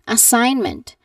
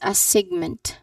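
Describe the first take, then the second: First: No G sound is heard in the middle. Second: A G sound is heard in the middle. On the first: The speaker calls it right. "there is a silent G sound" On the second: The speaker calls it wrong. "The common mistake here is that the people say it as a segment"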